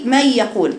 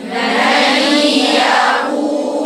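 First: "من يقول" said with no nasal hum on the nun; without ghunna. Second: "من يقول" with a long humming nasal nun; with long ghunna. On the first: Teacher showing the students a wrong reading of "من يقول" without nasalisation. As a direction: clip the nun of "من" short, no nasal resonance. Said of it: "ما جبتيش الغنة". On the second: Teacher demonstrating the correct nasal ghunna on "من يقول" to students. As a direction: hold the nasal hum of "من" slowly into "يقول". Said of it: "سمع الصوت ده بتاع الغنة". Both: Shown as a demonstration.

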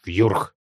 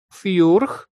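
First: Short, stern monster syllable; sharp creature retort. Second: High, rising pitiful chirp; plaintive creature query. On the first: Parent monster correcting its little one, sharp retort. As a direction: state it abruptly as a monster. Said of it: "резко заявил тот". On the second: Little monster checking an order, plaintive questioning squeak. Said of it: "жалобно уточнил Жгутик". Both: A narrator's reading.

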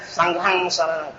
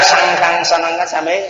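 First: "Sang Khăn" as sang-ga-hang, g and h blended; slow, softening "Sang Khăn Sa Năng" with aspirated gh; correct Pali. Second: "Sang Khăn" with a plain kh or k sound; everyday reading. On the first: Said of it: "đọc theo đúng Pali". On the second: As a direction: say "Khăn" as one simple syllable. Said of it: "Mà đọc nha". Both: Shown as a demonstration.

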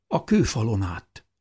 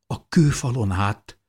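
First: Said in the usual way. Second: Higher, louder astonished echo; shocked disbelief. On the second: A narrator's reading. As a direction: repeat it back, stunned he climbed the wall. Mother repeats in shocked disbelief. (döbbent, hitetlenkedő visszakérdezés)

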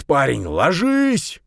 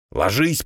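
First: Loud, slow, desperate yell; frantic yell. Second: Yelling. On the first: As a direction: scream the warning, dragged out. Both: A narrator's reading. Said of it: "истошно заорал он".

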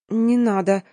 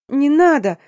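First: Small, choked plea; a mildly stifled protest; stifled babble. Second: High, loud wail; wailing plea. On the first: Frightened girl to the men examining her, faintly choked. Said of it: "пролепетала задушенно". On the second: Girl begs as the hunt is ordered, wailing high. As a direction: wail it out in despair. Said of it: "завыла я". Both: A narrator's reading.

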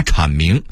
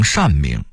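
First: Said in the usual way. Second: 善明 (shànmíng) said for chǎnmíng; workers' mispronunciation. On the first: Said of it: "把阐明说成". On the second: Shown as a demonstration. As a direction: misread chǎn as shàn in 善明. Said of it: "说成善明".

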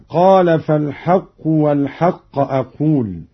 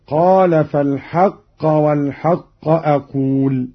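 First: فالحق ending in u, "fal-haqqu"; first word nominative. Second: فالحق ending in a, "fal-haqqa"; first word accusative. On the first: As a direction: put damma on the end of فالحق. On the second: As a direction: put fatha on the end of فالحق. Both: Shown as a demonstration. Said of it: "بنصب الأول".

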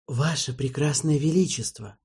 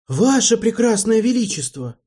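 First: Lightly fawning, ingratiating tone; butter up the king. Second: High, loud indignant protest. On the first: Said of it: "сказал Марбл заискивающе". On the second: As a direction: protest in outrage. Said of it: "возмутился Марбл". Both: Acted.

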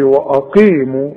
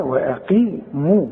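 First: وأقيموا with the waw swallowed into the hamza; teacher warns against this reading; wrong hamza reading. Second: وأقيموا with a distinct wa before the hamza, slowly and softly; teacher models the correct وأقيموا; clear waw then hamza. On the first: Retold or imitated. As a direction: mimic the student dropping the waw in وأقيموا. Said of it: "اوعى تقول لي". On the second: Shown as a demonstration. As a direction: say وأقيموا giving the waw its own beat. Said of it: "الواو دائمًا و".

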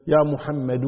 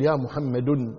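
First: "يا محمد" ending in an open -u, muhammadu; damma without tanween. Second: "يا محمد" ending in an added -un, muhammadun; wrong tanween ending. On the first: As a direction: end "محمد" on u with no n. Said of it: "تضم ولكن بدون تنوين". (نطق "يا محمد" بالضم دون تنوين: محمدُ) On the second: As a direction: sound a final n on "محمد": ya muhammadun. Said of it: "ما تقول". (نطق "يا محمد" بتنوين الضم: محمدٌ) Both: Shown as a demonstration.

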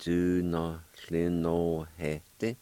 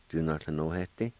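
First: Dunothlinohete drawn out very slowly, each syllable separate; slow model word. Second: Said in the usual way. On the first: Shown as a demonstration. Teacher slowly modelling the word for learners. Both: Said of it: "it'll sound like this".

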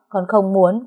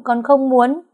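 First: Said in the usual way. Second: Higher and louder, nearly crying out; escalating refusal. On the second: Acted. Daughter insists to her father, voice rising higher and louder. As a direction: push the repeat up into a pleading outburst. Repeated refusal, second take.

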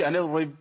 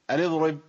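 First: ان اضرب with ض lost, like an erib; اضرب said without the ض; wrong dropped dad. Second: ان اضرب with ض clearly sounded; اضرب, full ض then ر; correct dad before raa. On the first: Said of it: "ما اقولش". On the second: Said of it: "ناخد بالنا". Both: Shown as a demonstration.

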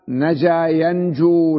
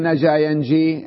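First: نجا ينجو drawn out slowly, ending in long oo; correct verb form. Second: نجا ينجي ending in long ee; wrong verb form. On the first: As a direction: slowly model ينجو as yan-JOO. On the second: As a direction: show the mistaken ينجي as yan-JEE. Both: Shown as a demonstration. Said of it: "لا تقول نجا ينجي".

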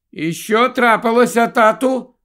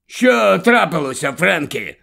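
First: Put-on high child's voice, raised throughout; questioning boy. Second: A hint of an old father querying his son; questioning grandfather. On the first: Boy interrupting his game to ask dad, high and questioning. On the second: Grandfather asking his son about the stop, questioning. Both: A narrator's reading.

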